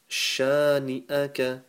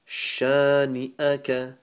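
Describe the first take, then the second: Both takes have the same delivery.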